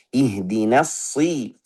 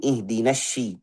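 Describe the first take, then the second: First: Slow Ihdinas si, lips relaxed; plain Ihdinas si without pursing; no rounded lips. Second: Ihdinas shi with a sh sound; shin instead of sad. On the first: Teacher models sad without rounding the lips. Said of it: "Gak butuh kita munyung". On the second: Teacher shows the wrong shin reading. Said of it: "Ada yang baca dari shin". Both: Shown as a demonstration.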